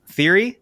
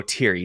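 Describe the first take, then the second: First: Tentative Thierry, starting on an English TH; TH pronunciation. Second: Thierry with a hard T, as TEER-ee; decided Thierry, H silent, TEER-ee; T pronunciation. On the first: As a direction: try Thierry as THEER-ee, higher and questioning. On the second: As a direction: settle on Thierry starting with a plain T. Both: Shown as a demonstration. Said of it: "I'm gonna go Thierry".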